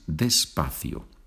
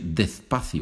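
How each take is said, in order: First: The s is pronounced as an s sound. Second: The s is pronounced as a th sound. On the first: The speaker calls it right. "So it is despacio" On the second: The speaker calls it wrong. "But don't say despacio. ... every time that they see an S, they pronounce it with TH"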